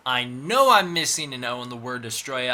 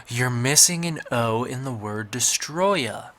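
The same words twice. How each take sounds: First: Said in the usual way. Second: Slow, a little louder, know-it-all commenter; mock nitpicking commenter. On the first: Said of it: "I know it's kind of a dumb reason". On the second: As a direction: lightly play a smug fan pointing out the typo. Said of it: "pointed it out in the comments saying".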